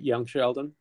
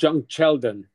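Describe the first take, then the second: First: The first word begins with a Y sound. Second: The first word begins with a J sound.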